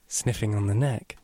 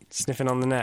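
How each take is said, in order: First: It is said in a put-on, creepy voice. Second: It is said in a natural speaking voice.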